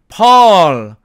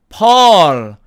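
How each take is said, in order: No difference in how they are said.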